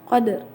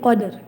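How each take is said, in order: First: A faint partial vowel follows the final r. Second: The word ends on r with no vowel. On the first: "Yang qadarinya itu disebut ar-rum gitu. Dibacanya qadr gitu" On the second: "biasanya jadi qadr"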